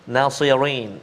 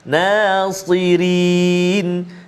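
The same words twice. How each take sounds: First: The r sounds heavy and English-like. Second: The r sounds light and thin. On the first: The speaker calls it wrong. "Jangan kita bunyi macam uh, apa speaker London" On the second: The speaker calls it right. "kena hati-hati supaya tak bunyi tebal"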